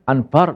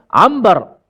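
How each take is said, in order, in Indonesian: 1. Bunyi n tetap dipertahankan sebelum b. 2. Bunyi m yang diucapkan sebelum b. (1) "Payah. Macam Jawa bunyi. Anbar bunyi tu" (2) "Kita terus tukarkan nun kepada mim"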